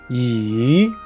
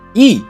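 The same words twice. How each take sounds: First: The pitch dips down and then rises. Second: The pitch falls sharply from high to low. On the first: "The third tone, down and up" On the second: "Last tone is E"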